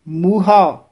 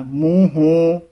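First: ਮੂਹਾ said muha, open a at the end; ਮੂਹਾ crisp, no nasal; correct pronunciation. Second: ਮੂੰਹੋਂ said nasal as muho, the mistake; ਮੂੰਹੋਂ as the error muho; wrong pronunciation. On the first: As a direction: model ਮੂਹਾ clearly as muha. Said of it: "ਮੂਹਾ ਉਚਾਰਨ ਕਰਨਾ ਹੈ". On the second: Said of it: "ਮੂੰਹੋਂ ਨਹੀਂ ਬੋਲਣਾ ਹੈ". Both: Shown as a demonstration.

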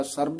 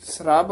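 First: ਸਰਬ said as sarb, vowel before the r; ਸਰਬ with r closing onto b; wrong pronunciation. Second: ਸਰਬ said as srab, s and r joined; ਸਰਬ with the r under the s; correct cluster. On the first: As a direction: separate s from r in ਸਰਬ. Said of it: "ਸਰਬ ਨਹੀਂ ਕਹਿਣਾ". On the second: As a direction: run s straight into r in ਸਰਬ. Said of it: "ਸਰਬ ਉਚਾਰਨ ਕਰਨਾ ਹੈ". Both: Shown as a demonstration.

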